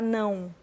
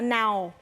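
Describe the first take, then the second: First: The vowel is nasal, with a nasal diphthong. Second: The vowel is oral, like English now. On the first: This is how a Brazilian says it. The speaker calls it right. "o ão é um som anasalado que o brasileiro tem" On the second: This is how a foreigner says it. The speaker calls it wrong. "Um gringo não sabe falar, ele fala now"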